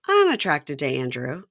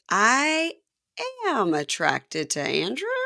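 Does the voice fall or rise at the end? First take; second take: falls; rises. First: The voice falls at the end like a statement. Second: The voice rises at the end like a question.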